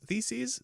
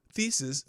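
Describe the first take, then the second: First: Theses with a long "eez" ending, pitched higher; checking pronunciation. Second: Theses with a short last vowel, "THEE-siz"; trying out pronunciation. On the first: Host asks if that's right, theses as higher, rising "THEE-seez". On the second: Host unsure of the word in Luther's document, theses as "THEE-siz". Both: Shown as a demonstration. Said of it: "that's how you say it".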